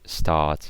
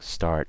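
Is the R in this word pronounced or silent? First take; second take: silent; pronounced. First: It is said without the R sound. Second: It is said with the R sound.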